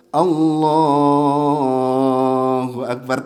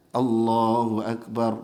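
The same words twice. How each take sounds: First: "Allahu" stretched long and slow; drawn-out takbir. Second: "Allahu Akbar" said short and even, with no stretch; short takbir. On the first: Teacher shows the overlong takbir that misleads the worshippers. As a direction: drag out the Allah. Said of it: "Soalnya kalau dipanjangin". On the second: Teacher shows the proper short takbir before sitting. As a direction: keep the takbir brief. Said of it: "kalau pas mau salam". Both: Shown as a demonstration.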